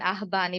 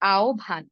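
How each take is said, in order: First: The middle is said with an h then b. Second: The middle is said as a rounded o then bh. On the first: The speaker calls it wrong. "আমরা আহব্বান, আহবান এভাবে বলি। এভাবে হবে না।" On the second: The speaker calls it right. "এর উচ্চারণ হবে আওভান"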